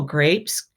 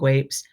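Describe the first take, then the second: First: The r sound is said clearly. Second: The r sound is replaced by another sound. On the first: An adult gently models the word back. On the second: A child with a speech difficulty said it.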